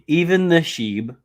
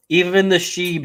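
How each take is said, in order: First: Slow excited, louder and higher; drawn-out hype call. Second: Excited. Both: Real, not acted. Hyping coin to chat.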